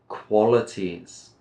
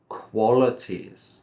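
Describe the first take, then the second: The two takes are said the same way.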